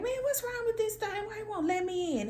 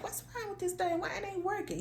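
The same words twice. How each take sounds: First: High-pitched frustrated complaint; a much higher, exasperated voice; frustrated outburst. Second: High, thinking out loud; talking to yourself. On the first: Retold or imitated. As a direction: whine at the broken door. Retold frustrated muttering at door. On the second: Shown as a demonstration. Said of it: "you just speaking out loud".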